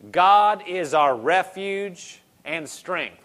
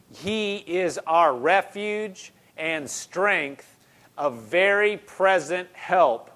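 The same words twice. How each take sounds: First: Each word slowly weighed, a little louder; slow scripture reading. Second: Drawn-out words, every one leaned on; slow emphatic restatement. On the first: Preacher opens verse one to the church, slow solemn reading. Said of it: "Verse one". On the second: Preacher repeats the verse to the congregation, slow and emphatic. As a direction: spell it out slowly for the room. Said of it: "preacher restates the verse". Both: Shown as a demonstration.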